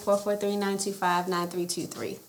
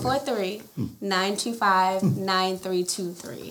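First: The number is said at a normal, quicker pace. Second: The number is said slowly and deliberately.

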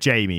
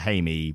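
First: The name begins with an English J sound. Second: The name begins with a breathy H sound. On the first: The speaker calls it wrong. "We said Jamie on the episode" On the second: The speaker calls it right. "but I think it's Haimi"

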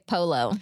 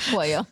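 First: The word is said like English 'polo'. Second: The word is said with Spanish pronunciation. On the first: The speaker calls it wrong. "Don't say polo" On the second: The speaker calls it right. "It's pollo"

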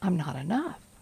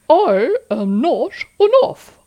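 First: It is said in a normal voice. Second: It is said in a funny put-on voice.

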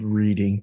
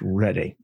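First: It is said the way the spelling suggests. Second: It is said in the local way. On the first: "It's spelled Reading" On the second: "but it's pronounced Reading"

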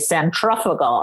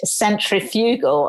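First: It is pronounced the American way. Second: It is pronounced the English way. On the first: "the Americans say" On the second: "what we say in English"

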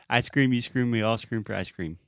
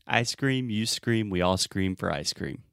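First: It is said as fast as possible. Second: It is said at a normal pace.

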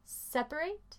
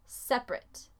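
First: The last syllable has a full 'ate' vowel. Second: The word is shortened with reduced vowels. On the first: It is the verb, to separate. "yo digo separate, please separate your clothing" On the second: It means something apart or loose. "yo no digo el primer A"

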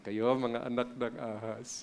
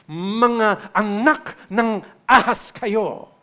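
First: It is said nicely, in a gentle tone. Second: It is said harshly, as a rebuke.

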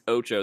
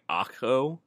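First: The middle consonant is a ch sound. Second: The middle consonant is a k sound. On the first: The speaker calls it right. "It's it's Ocho" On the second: The speaker calls it wrong. "I've had people pronounce it like Akko"

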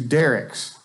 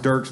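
First: The name is said as two syllables, Derricks. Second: The name is said as one syllable. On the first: This is how the locals say the town's name. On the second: This is how the singer's name is said.

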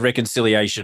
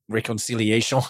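First: The word is said with a plain accent. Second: The word is said with a French accent.

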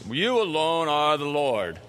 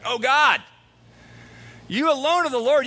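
First: It is said in a solemn religious voice. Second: It is said in a terrified, cracking voice.

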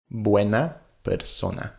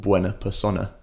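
First: The unstressed vowels are clear, full vowels. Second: The unstressed vowels are reduced to schwa. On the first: The speaker calls it right. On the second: The speaker calls it wrong.

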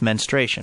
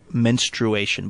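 First: The u in the middle is dropped. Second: The u in the middle is pronounced. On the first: The speaker calls it right. "but it's menstruation, right?" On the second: The speaker calls it wrong. "there's a U in there. So it looks like it could be menstruation"

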